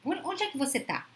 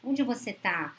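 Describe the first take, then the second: First: Suspicious, demanding "Onde é que você tá?" with the pitch pushed up; accusing tone. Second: Caring tone. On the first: Wife grilling her husband about where he is: suspicious demand. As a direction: ask "você tá" as if catching him out. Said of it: "Olha o tom". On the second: Partner calling a loved one who didn't answer: gentle worried question. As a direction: ask where she is because you truly worry. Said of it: "Olha o tom da preocupação". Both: Retold or imitated.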